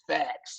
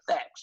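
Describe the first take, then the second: First: The word is stretched out a little longer. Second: The word is said short and plain. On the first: The speaker calls it right. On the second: The speaker calls it wrong.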